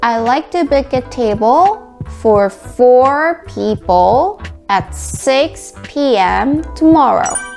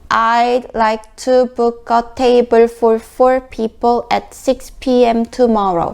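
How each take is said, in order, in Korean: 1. 핵심 단어에는 자연스럽고 부드럽게 힘을 실어 줘요. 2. 모든 단어를 힘을 빼고 고르게 말해요. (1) "자연스럽게 힘을 실어서 밀어주듯이 발음해주세요" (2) "이 문장을 강세가 없이 발음한다면"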